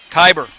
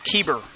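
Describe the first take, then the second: First: The first vowel sounds like 'eye'. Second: The first vowel sounds like 'ee'. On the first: The speaker calls it right. "pronounced Kyber" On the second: The speaker calls it wrong. "Said it wrong again"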